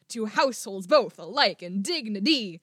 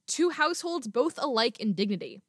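First: Every second syllable is heavily over-stressed. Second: The stresses are natural and not exaggerated.

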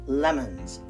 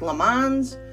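First: The last syllable has a weak schwa vowel. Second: The last syllable has a full O vowel. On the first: The speaker calls it right. "we pronounce it lemons ... that schwa at the end" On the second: The speaker calls it wrong. "it looks like lemons"

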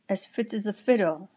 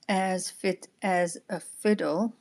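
First: The small words are said quickly and reduced. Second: The small words are said slowly and in full. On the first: The speaker calls it right. "I'm saying the small words quite quickly" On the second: The speaker calls it wrong. "I'm saying not as fit as a fiddle"

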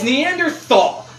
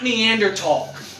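First: The middle consonant is a th sound. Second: The middle consonant is a plain t sound. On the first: The speaker calls it right. "The fucking TH makes the th. I don't say t, I say the" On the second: The speaker calls it wrong. "it's not Neanderthal"

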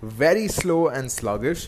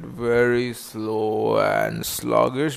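First: It is said at a normal, brisk pace. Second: It is said very slowly and sluggishly.

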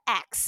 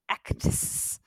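First: The final consonants are blurred and sound like X. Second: Every consonant is crisply over-enunciated.

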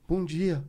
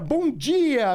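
First: It is said in a scared, timid way. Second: It is said in a cheerful, energetic way.

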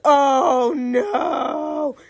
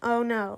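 First: It is said loudest and biggest. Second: It is said fairly quietly.

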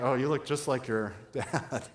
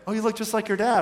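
First: The remark sounds doubtful and unflattering. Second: The remark sounds warm and approving. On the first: The resemblance is an unfortunate thing. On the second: The resemblance is a good thing.

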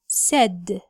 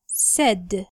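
No difference in how they are said.

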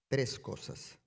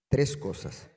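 First: It is said plainly, without extra energy. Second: It is said with eager, lively energy.

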